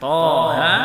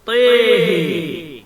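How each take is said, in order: First: Both vowels stay open, with no tilt. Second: Both vowels lean toward e. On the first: This is the reading with no tilt. "bukan Toha" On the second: This is the reading with the tilt on both letters. "dengan mengimalahkan baik huruf Tha ataupun huruf Ha"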